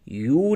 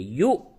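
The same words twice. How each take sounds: First: The syllable ends smoothly without a catch. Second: The syllable ends with a sharp throat catch. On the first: The speaker calls it wrong. "यू नहीं बोलेंगे" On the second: The speaker calls it right. "उसमें एक किस्म का झटका पैदा होता है"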